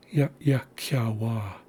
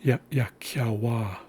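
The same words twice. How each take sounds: First: Ya, ya, kya, wa again, glottal pause before second ya; careful repeat. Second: Ya, ya, kya, wa with a tiny catch before the second ya; slow syllable demo. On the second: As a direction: sound out Ya, ya, kya, wa one piece at a time. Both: Shown as a demonstration. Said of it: "listen closely as I say the word".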